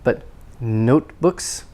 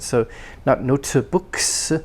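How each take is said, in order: First: The T and K are held unreleased. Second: The T and K are audibly released. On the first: The speaker calls it right. "the K is not released" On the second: The speaker calls it wrong.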